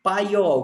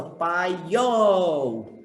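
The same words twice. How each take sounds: First: Said in the usual way. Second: "Paiol" drawn out long on "iol"; stress on final syllable. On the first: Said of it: "qual é a sílaba só?". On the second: Shown as a demonstration. Teacher showing the strongest syllable, "Paiol" stretched with stress on "iol". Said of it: "porque o iol é a mais forte".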